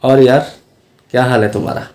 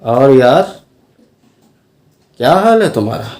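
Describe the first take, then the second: First: It is said in a plain, neutral tone. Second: It is said in a distinctly marked tone. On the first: "तो ये तो normal हो गया।" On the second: "तो तरह तरह की टोन आप अपना सकते हैं।"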